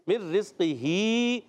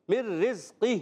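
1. لفظ ہ کے بعد ایک مکمل حرف علت پر ختم ہوتا ہے۔ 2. لفظ خاموش ہ کی آواز پر ختم ہوتا ہے۔ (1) "اب یہاں جو ہے مر رزق ہی نہیں پڑھیں گے" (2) "ہا ساکن سے بدلیں گے"

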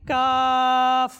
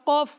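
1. স্বরধ্বনিটি দীর্ঘ করে টানা হয়েছে। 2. স্বরধ্বনিটি হ্রস্ব ও ঝটপট শেষ। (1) "কমপক্ষে আমাদের তিন হতে চার আলিফ টানতে হবে" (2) "এভাবে পড়ব না"

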